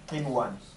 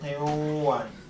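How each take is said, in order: First: The n is pronounced clearly before the w. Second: The n merges nasally into the following w. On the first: The speaker calls it right. "We read it naturally" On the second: The speaker calls it wrong. "but I don't say qinwan. Incorrect"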